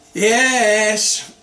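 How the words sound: It is said in a weary, fed-up way. The speaker is tired of the topic. "it means I'm getting so tired of it"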